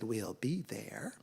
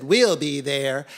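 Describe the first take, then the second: First: Soft, low, near-whispered promise; hushed, slow acceptance; subdued agreement. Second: Loud, drawn-out confident promise; eager cats sealing a deal; keen agreement. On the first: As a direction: give in quietly, stretching the words. Worn-out cats give in quietly. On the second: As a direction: agree heartily, stretching the words. Cats eagerly agree first time. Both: A narrator's reading.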